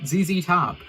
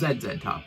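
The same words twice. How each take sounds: First: The letters are said as zee, zee. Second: The letters are said as zed, zed.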